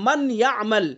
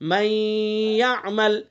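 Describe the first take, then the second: First: The n of man is pronounced clearly. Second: The n merges into y with nasal sound. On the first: "असल मन यअमल" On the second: "इसमें गुन्ना करके पढ़ेंगे"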